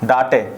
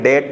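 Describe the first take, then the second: First: It is said as two syllables, daa-tay. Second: It is said as one syllable, dayt. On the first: The speaker calls it wrong. "डाटे भी तो हो सकता था ये, लेकिन नहीं" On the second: The speaker calls it right. "डेट पढ़ेंगे इसे"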